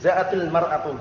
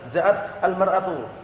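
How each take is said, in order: First: Ja'at runs straight into -il with a kasra. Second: Ja'at ends in t, then a separate al. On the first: The speaker calls it right. "tapi ja'atil mar'atu, sambung langsung, wasl" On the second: The speaker calls it wrong. "enggak. Dibacanya dengan ja'at al-mar'atu"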